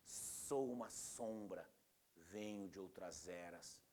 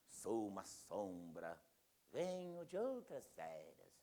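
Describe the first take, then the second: First: The s sounds are drawn out like wind. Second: The s sounds are short and plain. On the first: The speaker calls it right. "o som do vento passando" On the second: The speaker calls it wrong. "O cara declama assim"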